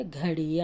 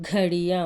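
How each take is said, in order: First: Said in the usual way. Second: ఘడియ with a firm, breathy ఘ; aspirated demo. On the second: Shown as a demonstration. Teacher reading ఘడియ firmly for children. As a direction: hit the ఘ of ఘడియ hard. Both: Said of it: "కొంచెం గట్టిగా చదువుతున్నాను".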